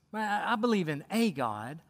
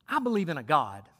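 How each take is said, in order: First: "a" said as a full, stressed "ay". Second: Said in the usual way. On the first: Retold or imitated. Preacher quotes people today, stressing "a" as "ay". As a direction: lean on "a", pronounced like the letter A. Repeats saying, stressing the article.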